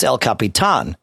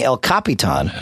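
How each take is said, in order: First: "El Capitan" with stress on the final "tahn"; "El Capitan", accent on the last A; accented final syllable. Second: "El Capitan" without stress on the final syllable; "El Capitan", no accent on the last A; unaccented version. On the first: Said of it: "That's what the accent means". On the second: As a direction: say "El Capitan" with "tahn" left unstressed. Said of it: "changes the accent". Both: Shown as a demonstration.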